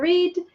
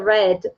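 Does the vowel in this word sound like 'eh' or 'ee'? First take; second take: ee; eh. First: The vowel sounds like 'ee', as in reed. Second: The vowel sounds like 'eh', as in red. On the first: It is the infinitive form of the verb. "no infinitivo é read" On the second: It is the simple past form of the verb. "no passado simples é read"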